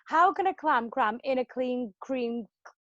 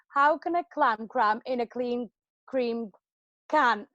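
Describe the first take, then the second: First: It is said at a faster speed. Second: It is said at a normal, careful speed.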